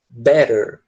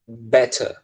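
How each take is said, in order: First: The middle t is a soft flapped r-like sound. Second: The middle t is a clear, strong t. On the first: "Eles acabam transformando em som de R também" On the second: "Ele deixa o T com o som de T mesmo"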